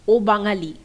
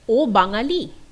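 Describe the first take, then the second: First: It is said with statement intonation. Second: It is said with question intonation. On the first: It states that he is Bengali. "which is a statement" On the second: It asks whether he is Bengali. "which is a question"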